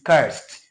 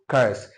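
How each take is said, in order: First: The word ends with a t sound. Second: The word ends with a d sound. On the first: The speaker calls it right. "C U R S E D is cursed" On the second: The speaker calls it wrong. "not cursed"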